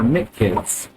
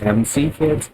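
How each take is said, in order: First: The first part is said as one syllable. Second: The first part is spelled out as two letters. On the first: "pronounces it different" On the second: "pronounces it different"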